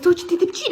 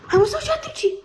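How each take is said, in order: First: Said in the usual way. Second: Pitched well up, cooing. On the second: Real, not acted. To the crying pet, a high cooing question.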